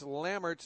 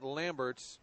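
First: The name is said with no b sound. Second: The name is said with a b sound. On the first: The speaker calls it right. "No B" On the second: The speaker calls it wrong.

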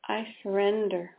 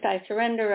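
First: It is said with deep, heartfelt emotion. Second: It is said in a detached, matter-of-fact way. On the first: The surrender comes from the heart. The speaker calls it right. "very emotional" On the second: The surrender is only a mental exercise. The speaker calls it wrong. "the first one is very differently a mental exercise"

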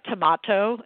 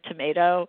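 First: It is said in a Boston accent. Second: It is said in a standard accent. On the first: This is how the mother said it. "she would say things like tomato" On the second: This is how others usually say it. "instead of tomato"

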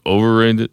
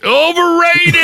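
First: The word is said softly and without force. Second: The word is said loudly and with force. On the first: The speaker calls it wrong. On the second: The speaker calls it right.

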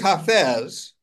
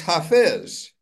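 First: The name is said with a Persian pronunciation. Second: The name is said with an Arabic pronunciation. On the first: "In Persian" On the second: "And in Arabic"

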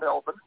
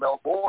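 First: It is said in the speaker's own accent. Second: It is said in the listener's accent.

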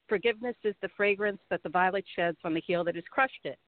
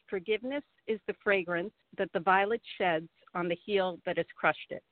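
First: It is said at normal conversational speed. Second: It is said slowly and deliberately.

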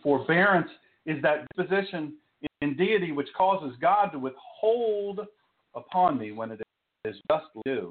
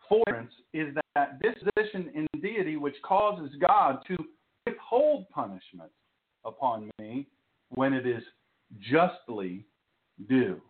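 First: The sentence is spoken at a normal, quicker pace. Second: The sentence is spoken at a slower pace.

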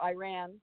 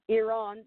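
First: Iran is said the common American way. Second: Iran is said in a non-American way.

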